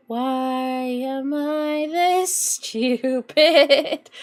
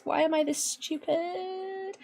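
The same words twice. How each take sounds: First: Stretched very slowly, each word dragged out; milk the self-pity theatrically; hammed-up drawn-out wail. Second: Higher, much softer, slow moan at himself; soft self-pitying whine. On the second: Real, not acted. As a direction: whimper it quietly in dismay. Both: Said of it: "I'm gonna cry".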